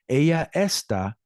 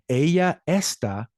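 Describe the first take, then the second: Both takes have the same delivery.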